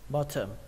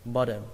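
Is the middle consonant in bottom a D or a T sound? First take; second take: T; D. First: The middle consonant is a clear T sound. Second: The middle consonant is a D sound.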